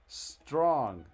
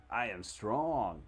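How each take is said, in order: First: Strong said loud and sharp; corrected word. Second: I am strong spelled out very slowly, each word weighed; slow deliberate. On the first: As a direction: bark out Strong to fix the misreading. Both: Shown as a demonstration. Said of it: "I'm still s-, storing".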